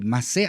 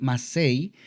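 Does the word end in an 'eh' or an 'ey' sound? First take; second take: eh; ey. First: The word ends in a plain 'eh' vowel. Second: The word ends in an 'ey' glide. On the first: The speaker calls it right. "solo se conoce como Masé" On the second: The speaker calls it wrong. "algunos dicen Masei"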